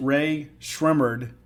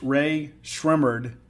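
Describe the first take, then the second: First: The second word sounds like 'Shrimmered'. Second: The same.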